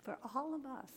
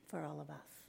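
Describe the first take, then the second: First: ALL lifted high, then falling; stress on ALL. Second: Said in the usual way. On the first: Real, not acted. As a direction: repeat it with ALL raised in pitch. Repeats the phrase for emphasis.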